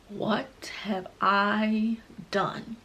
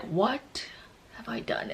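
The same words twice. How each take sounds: First: Slow, hushed melodramatic regret; mock dramatic. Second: Very soft, halting mock regret; dramatic hush. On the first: Telling of pain striking in the pool, mock dramatic. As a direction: draw out each word in theatrical dread. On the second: Replaying her shock in the pool, hushed drama. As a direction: pause after WHAT, then nearly swallow the rest. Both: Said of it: "I'm being dramatic".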